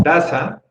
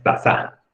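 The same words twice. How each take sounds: First: "taza" slowed, first syllable TA stressed. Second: "taza" drawn out with final ZA stressed; wrong stress on ZA. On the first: Teacher explaining the exception, TA stressed in "taza". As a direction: say "taza" as TA-za, leaning on the start. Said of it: "la sílaba que se pronuncia más fuerte es ta". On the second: Teacher showing what sounds bad, final ZA stressed in "taza". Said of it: "Ta suena mal". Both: Shown as a demonstration.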